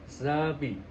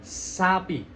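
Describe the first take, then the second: First: The S has no hiss. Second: The S has a clear hiss. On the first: The speaker calls it wrong. "Kalau nggak berdesis" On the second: The speaker calls it right. "Jadi ada desisan"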